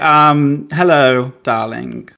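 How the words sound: It is said in a natural everyday voice. "just do my normal voice"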